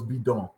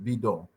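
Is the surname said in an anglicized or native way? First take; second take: native; native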